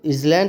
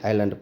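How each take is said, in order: First: The s sound is pronounced in the middle. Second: The s sound is left out entirely. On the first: The speaker calls it wrong. "पढ़ना चाहिए, लेकिन एस silent है" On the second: The speaker calls it right. "आइलैंड पढ़ेंगे"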